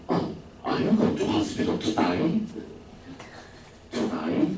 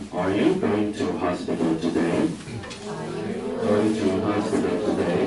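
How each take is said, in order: First: Put-on slow, breathy Australian accent with today sounding like to die. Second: Said in the usual way. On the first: Australian teacher asking a sick colleague, in Australian accent. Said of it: "原来那个澳洲老师说". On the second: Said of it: "来听一下".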